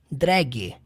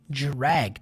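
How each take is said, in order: First: The word begins with a plain D sound. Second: The word begins with a J-like sound. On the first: The speaker calls it wrong. "a pronúncia não é drag" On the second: The speaker calls it right. "Tem um, um pouquinho do J"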